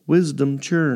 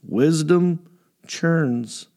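First: The two words run together without a pause. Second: There is a pause between the two words.

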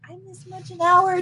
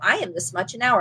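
First: The voice is small, unclear and unconfident. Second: The voice is firm, clear and confident. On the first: The speaker fears the price will be refused. "this little, I could tell that it wasn't clear. It wasn't confident" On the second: The price is stated as non-negotiable. "I didn't come in and go"

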